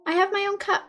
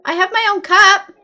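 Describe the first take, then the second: First: I have my own cup. said flatly, falling, with a quieter stress on have; a matter-of-fact settling; flat statement. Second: I have my own cup? asked with a rising end on cup; a hopeful offer, cup rising; questioning tune. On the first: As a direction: state it plainly, letting it drop. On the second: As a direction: ask it, lifting up on cup. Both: Shown as a demonstration.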